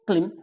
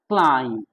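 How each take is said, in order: First: The vowel is a short 'ih' sound. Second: The vowel is a long 'eye' sound. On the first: The speaker calls it wrong. "इसको क्लिम नहीं पढ़ना है" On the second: The speaker calls it right. "क्या पढ़ना है"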